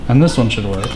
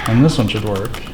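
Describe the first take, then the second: No difference in how they are said.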